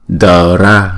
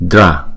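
First: The d and r are split into two syllables. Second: The d and r blend into one syllable. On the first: The speaker calls it wrong. "Mani ba đờ ra là không đúng" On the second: The speaker calls it right. "chúng ta ghép lại là dra dra"

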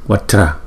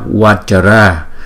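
First: The word is spoken in two syllables. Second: The word is spoken in three syllables. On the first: The speaker calls it right. "chúng ta phải đọc là Vatra Vatra. Thấy không? Là hai âm thôi" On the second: The speaker calls it wrong. "đừng có đọc Vatra, bởi vì chúng ta khi chúng ta đọc Vatra là thành ba nhịp ba âm rồi"

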